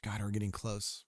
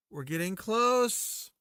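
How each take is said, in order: First: Said in the usual way. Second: Higher, slow sing-song; slow, lifted repeat; drawn-out high. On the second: Pretend. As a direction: stretch it out, pitched up. Repeats phrase differently.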